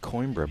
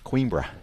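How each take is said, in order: First: The name is pronounced the English way. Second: The name is pronounced in a non-English way. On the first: The speaker calls it wrong. "that's a very English way of pronouncing it" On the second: The speaker calls it right. "That's the way to pronounce it"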